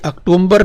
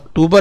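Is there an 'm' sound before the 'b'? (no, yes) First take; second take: yes; no. First: An extra m sound comes before the b. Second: No m sound comes before the b. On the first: The speaker calls it wrong. "तो ये अक्टूबर नहीं है बच्चों" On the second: The speaker calls it right. "अक्टूबर है।"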